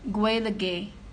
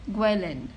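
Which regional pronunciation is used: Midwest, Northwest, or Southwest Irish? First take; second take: Midwest; Southwest. First: It is said the way midwestern Ireland says it. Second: It is said the way southwestern Ireland says it. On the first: "in the Midwest" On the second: "in the southwest"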